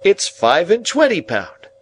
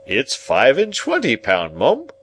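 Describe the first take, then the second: First: High, loud, delighted announcement; triumphant rustic reveal. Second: Pompous echo lifting high on the last word; self-important confirmation; echoing Pumblechook. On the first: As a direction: reveal the sum with glee. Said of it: "delightedly handing the bag". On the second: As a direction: repeat it as if it were your own news. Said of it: "echoed that basest of swindlers, Pumblechook". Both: A narrator's reading.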